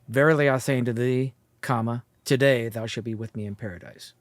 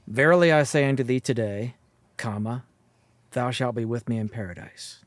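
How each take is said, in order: First: The break comes right before the word today. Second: The break comes right after the word today. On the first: The promise is made today; paradise comes eventually. "I'm telling you today that eventually you'll be" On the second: The listener will be in paradise this very day. "One saying that today you're going to go to paradise"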